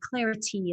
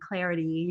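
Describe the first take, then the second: First: The T is said as a crisp, sharp stop. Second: The T is said as a soft, quick tap. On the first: "having nice crisp T's" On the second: "the tapped T that I like to do from America"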